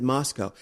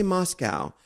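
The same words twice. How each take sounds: First: "Moscow" with a final koh, rhyming with go; Moscow as MOSS-koh. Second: "Moscow" ending like the animal cow; Moscow as MOSS-cow. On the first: Traveler correcting the listener, "Moscow" as MOSS-koh. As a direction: end "Moscow" on a long o. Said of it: "I said Moscow". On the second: Traveler showing the rejected way, "Moscow" as MOSS-cow. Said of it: "I did not say Moscow". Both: Shown as a demonstration.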